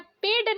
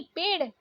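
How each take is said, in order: First: पेड़ with hard ड stop; wrong hard D. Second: पेड़ with flapped ड़; correct flapped ड़. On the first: Teacher showing learners the mistake, hard-D पेड़. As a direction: end पेड़ on D, no flap. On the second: Teacher correcting learners, flapped पेड़. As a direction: flick the final ड़ in पेड़. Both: Shown as a demonstration. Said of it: "नहीं".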